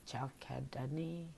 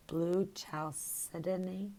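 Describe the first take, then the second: First: "chalcedony" with a hard K in the middle, chal-KED-uh-nee; alternative pronunciation. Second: "chalcedony" with a soft S in the middle, sal-SED style; tentative pronunciation. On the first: Host trying another way to say the name, soft hard-K "chalcedony". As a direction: try "chalcedony" softly, with a K sound for the C. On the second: Host unsure of the crystal's name, tentative soft-C "chalcedony". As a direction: sound out "chalcedony" slowly with an S sound for the C. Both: Real, not acted. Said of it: "I can't pronounce it".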